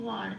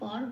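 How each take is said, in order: First: The syllable begins with a w sound. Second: The syllable begins with a b sound. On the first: This is the Sanskrit way of saying it. The speaker calls it right. "উচ্চারণটা ওয়ার" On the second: This is the Bengali way of saying it. The speaker calls it wrong. "বর বলতে পারবো না কারণ বটা বাংলা উচ্চারণ"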